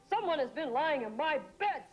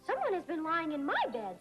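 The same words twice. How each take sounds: First: It is said in a big, deep voice. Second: It is said in a medium-sized voice.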